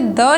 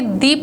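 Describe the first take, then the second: First: The word ends in a short 'uh' vowel. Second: The word ends in a long 'ee' vowel. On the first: The next word starts with a consonant sound. The speaker calls it wrong. "इसे द नहीं prefer करेंगे" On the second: The next word starts with a vowel sound. The speaker calls it right. "दी prefer करेंगे"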